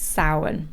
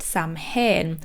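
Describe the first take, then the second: First: It is pronounced differently from its spelling. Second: It is pronounced the way it is spelled. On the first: The speaker calls it right. "it is actually pronounced Samhain" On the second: The speaker calls it wrong. "I incorrectly pronounced it Samhain because that's how it's spelled"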